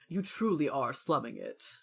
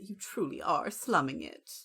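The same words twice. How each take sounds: First: It is said in a plain, unaltered voice. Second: It is said in a put-on character voice.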